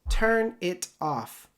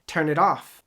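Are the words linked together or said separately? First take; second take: separately; linked. First: The words are said separately, not linked. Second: The words are linked together smoothly. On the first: The speaker calls it wrong. "That doesn't sound good" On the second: The speaker calls it right. "let me know what I did"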